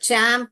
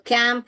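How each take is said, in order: First: The word begins with a ch sound. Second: The word begins with a k sound. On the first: The speaker calls it right. "चैम्प पढ़ के देखेंगे" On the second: The speaker calls it wrong. "फिर क डाल के देखेंगे C H को"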